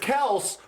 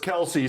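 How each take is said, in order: First: The name is said with one syllable. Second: The name is said with two syllables. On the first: This is the family's own pronunciation. "He said it's Kels" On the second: This is how most people say it. "everyone calls us Kelsey"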